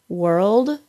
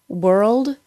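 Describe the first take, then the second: Both takes have the same delivery.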